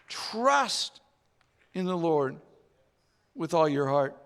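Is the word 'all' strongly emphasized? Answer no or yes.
no. The word all gets no special emphasis.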